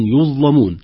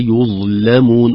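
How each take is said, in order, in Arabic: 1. صوت اللام سميك وثقيل. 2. صوت اللام رقيق وخفيف. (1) "تخرج اللام مغلظة" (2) "يقرأ بترقيقها"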